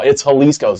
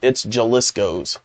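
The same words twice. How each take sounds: First: The name is said with Spanish-style sounds. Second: The name is said with anglicized English sounds. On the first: The speaker calls it right. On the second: The speaker calls it wrong.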